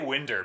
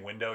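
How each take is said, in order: First: The word ends with an 'er' sound. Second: The word ends with an 'oh' sound. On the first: "if I say winder, people think it's funny" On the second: "instead of saying window"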